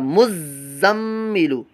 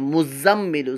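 First: The z sound is held long and doubled. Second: The z sound is short and single. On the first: The speaker calls it right. "रमा यूं बनेगा" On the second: The speaker calls it wrong. "बाद लोग इसको मुज़म्मिलु पढ़ते हैं"

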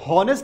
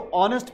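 First: The word begins with an audible h sound. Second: The word begins directly with a vowel sound. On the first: The speaker calls it wrong. "हम इसको हॉनेस्ट नहीं पढ़ते" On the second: The speaker calls it right. "हम इसको ऑनेस्ट पढ़ते हैं"

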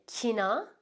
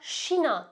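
First: The word begins with a hard k sound. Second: The word begins with an sh sound. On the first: "Bunu halk arasında bazı yerlerde Kina" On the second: "ya da Şina şeklinde de duyabilirsiniz"

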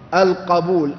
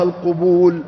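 First: The first vowel is a, as in qabul. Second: The first vowel is u, as in qubul. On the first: It means acceptance. The speaker calls it right. "افتحوا فتحة القاف" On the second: It names the plural of a word for front parts. The speaker calls it wrong. "لا تقل نسأل الله القبول"

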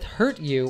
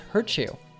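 First: The t and y sounds stay separate. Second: The t and y merge into a ch sound.

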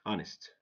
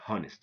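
First: No H sound is heard at the start. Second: An H sound is heard at the start. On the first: The speaker calls it right. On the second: The speaker calls it wrong.

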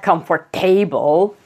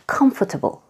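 First: The stress falls on a later syllable. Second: The stress falls on the first syllable. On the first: The speaker calls it wrong. "Not comfortable" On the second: The speaker calls it right. "The stress is on the first syllable"

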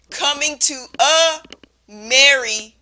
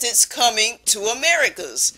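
First: The phrase is said at a normal pace. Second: The phrase is said quickly, run together.

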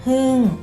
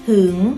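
First: The tone falls through the syllable. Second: The tone rises through the syllable. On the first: "โท" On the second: "อักษรสูงนะคะผันได้3 เสียงเสียงจัตวา"

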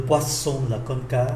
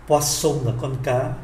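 No difference in how they are said.

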